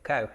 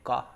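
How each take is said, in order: First: The word starts with a hard k sound. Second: The word starts with a soft g-like sound. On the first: This is how international travelers say it. "most international travelers uh, pronounce it Koh" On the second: This is how Thai speakers say it. "if you're speaking Thai, you actually probably pronounce it Go"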